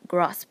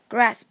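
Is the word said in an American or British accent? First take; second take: British; American. First: It is said in a British accent. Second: It is said in an American accent. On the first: "英音中则读成grasp" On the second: "它的美音读成grasp"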